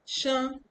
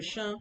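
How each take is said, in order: First: "Shen" said high in the wrong tone. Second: Fix the tone of "Shen"; corrected tone. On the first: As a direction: slip on the tone of "Shen". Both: Shown as a demonstration. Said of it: "sorry, Shen".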